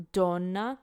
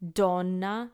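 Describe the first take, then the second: The two takes are said the same way.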